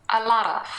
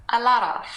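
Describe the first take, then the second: The two takes are said the same way.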